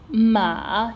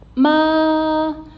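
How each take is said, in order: First: The pitch dips down and then rises. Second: The pitch stays level and is held long. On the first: "it falls and then it gets to rise" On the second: "Being a flat tone, we have to sustain a little bit"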